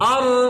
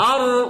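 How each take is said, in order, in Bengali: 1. শেষের র-এর শব্দ চাপ দিয়ে ধরে রাখা হয়। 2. শেষের র-এর শব্দ চাপ দিয়ে ধরে রাখা হয়।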